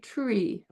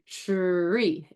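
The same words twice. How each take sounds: First: The word starts with a plain, unaffricated t-r. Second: The word starts with an affricated ch-like t-r. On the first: "Or you would say tree, perhaps" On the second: "we say tree as an affricate"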